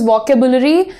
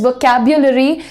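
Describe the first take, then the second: First: The middle syllable is a plain 'bu' sound. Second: The middle syllable is a 'byu' sound. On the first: The speaker calls it wrong. "इसका जो miss pronunciation होता है" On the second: The speaker calls it right. "And this बी यू sounds like ब्यू"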